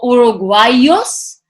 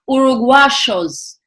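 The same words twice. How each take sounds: First: The middle consonant sounds like an English 'y'. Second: The middle consonant sounds like an English 'sh'. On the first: "instead of saying" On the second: "because of the pronunciation, the accent these countries have"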